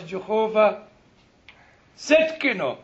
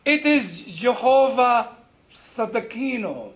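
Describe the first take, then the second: First: Setkino squashed into SED-kee-no; mispronounced Hebrew title. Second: Sadakino drawn out slowly in full syllables; corrected pronunciation. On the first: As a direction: imitate the congregation's botched Setkino. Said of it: "And they said". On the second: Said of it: "What's that Setkino?". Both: Retold or imitated.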